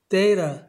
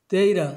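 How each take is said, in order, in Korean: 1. 중간 t는 r처럼 플랩으로 발음됩니다. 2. 중간 t는 r처럼 플랩으로 발음됩니다.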